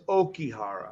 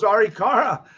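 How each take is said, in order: First: The name begins with an 'oh' sound. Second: The name begins with an 'ar' sound. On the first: The speaker calls it right. "so it's Okihara" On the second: The speaker calls it wrong. "I always thought it was Arikara"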